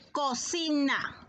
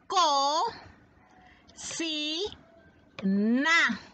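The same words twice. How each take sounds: First: Said in the usual way. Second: "Co, si, na" raised, each syllable held alone; long pause after each of "Co", "si", "na"; split into syllables. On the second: Shown as a demonstration. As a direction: dictate "Co, si, na" one syllable at a time. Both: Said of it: "Vamos a descomponer".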